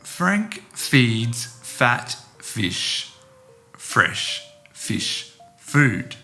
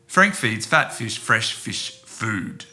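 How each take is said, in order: First: The sentence is spoken slowly. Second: The sentence is spoken quickly. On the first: "I'll say it slowly" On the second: "then quickly"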